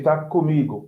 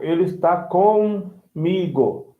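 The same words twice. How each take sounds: First: "comigo" run together, starting "coo"; reduced co. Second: Slow "comigo" split with a full "com". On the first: Teacher showing everyday speech, "comigo" as "coomigo". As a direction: shorten the first syllable of "comigo" to "coo". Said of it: "We say". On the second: Teacher showing unreduced form, "comigo" with a stretched "com". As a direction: separate "com" from "igo" in "comigo". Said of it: "you don't say "com". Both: Shown as a demonstration.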